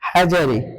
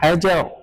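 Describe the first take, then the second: First: The word ends with a vowel. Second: The word ends with a consonant. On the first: The speaker calls it wrong. "এভাবে বলতে পারবো না" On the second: The speaker calls it right. "এটা এভাবে পড়তে হবে"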